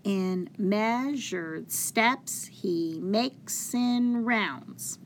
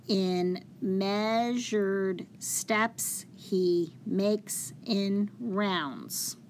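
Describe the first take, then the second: First: Slow beat, stress on "measured", "steps", "makes", "rounds"; exaggerated meter, "steps" and "rounds" hit harder than "he" and "in"; alternating metrical stress. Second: Very slow, measured reading of the verse; spaced-out syllables for counting. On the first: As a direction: lean on every second syllable: "in MEAsured STEPS he MAKES in ROUNDS". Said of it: "put a little more stress or emphasis". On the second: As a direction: read it out one syllable at a time. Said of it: "when I read each syllable". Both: Shown as a demonstration.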